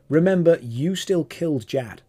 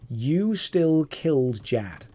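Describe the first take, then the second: First: Said in the usual way. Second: "You still killed Jad" slowly, each word drawn out; emphatic repeat. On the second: Real, not acted.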